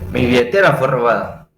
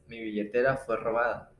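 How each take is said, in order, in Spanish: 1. La entonación no está en un nivel medio. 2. La entonación se mantiene en un nivel medio. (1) "su forma incorrecta sería" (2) "su forma correcta es"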